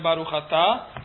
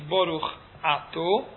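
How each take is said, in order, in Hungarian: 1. Az utolsó szó 'a' magánhangzóra végződik. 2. Az utolsó szó 'o' magánhangzóra végződik. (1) "és nem Baruch Ata" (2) "aki az imát hagyományos kiejtésben fogja mondani, azt jelenti Baruch Ato"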